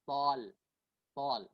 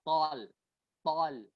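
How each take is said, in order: Both takes have the same delivery.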